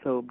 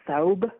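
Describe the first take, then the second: First: It uses the everyday common pronunciation. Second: It uses the classical Arabic pronunciation. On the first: It is the way most people say it. "most people say thobe now" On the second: It comes across as the snobby way. "the real classical Arabic way to do it"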